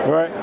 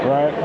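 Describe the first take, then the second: No difference in how they are said.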